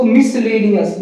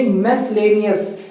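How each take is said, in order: First: मिसलेनियस opening on "mis"; short "i" in the start of मिसलेनियस; usual mispronunciation. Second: मिसलेनियस opening on "mes"; corrected pronunciation. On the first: Teacher quoting what we used to say, mispronounced. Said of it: "बोलते थे इसको". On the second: Teacher telling students what to say, corrected. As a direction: say "e" in the start of मिसलेनियस. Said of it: "बोलेंगे". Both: Shown as a demonstration.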